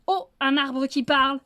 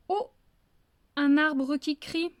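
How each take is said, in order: First: Louder, triumphant greeting; wolf proving his point to the fox; emphatic demonstration. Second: Slow, a bit louder, drawn-out; slow solemn greeting. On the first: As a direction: show him how it's done. Wolf shows the right greeting. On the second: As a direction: intone it like a ritual phrase. Fox's third wrong greeting. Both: Acted.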